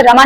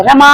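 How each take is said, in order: First: Said in the usual way. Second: रमा with the मा held three times long; prolonged last vowel. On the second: Shown as a demonstration. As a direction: draw out only the मा in रमा. (रमा में मा को तिगुना खींचें) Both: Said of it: "यहाँ पे हम माँ को तीन गुना खींच रहे हैं".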